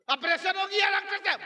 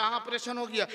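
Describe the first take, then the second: First: High-pitched, imitated astonished asking; acted disbelieving question. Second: Said in the usual way. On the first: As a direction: ask it high, like a stunned relative. Astonished father questions the doctor.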